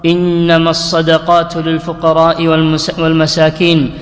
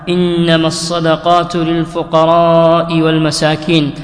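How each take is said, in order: First: The long vowels are kept short, without lengthening. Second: The long vowels are drawn out with lengthening. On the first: The speaker calls it wrong. "مرسلة" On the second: The speaker calls it right. "فمد"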